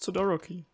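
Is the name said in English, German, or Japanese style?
Japanese. Said with a Japanese-style pronunciation. This is how the name is really said. The speaker calls it right. "it's Todoroki"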